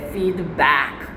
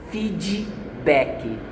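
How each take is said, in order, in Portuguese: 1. Ela é pronunciada com sotaque do inglês americano. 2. Ela é pronunciada com sotaque do português brasileiro. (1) "É feedback" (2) "o brasileiro ele fala assim"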